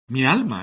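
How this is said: The consonant before m is pronounced as l. "Mi alma, es lo que quieren decir"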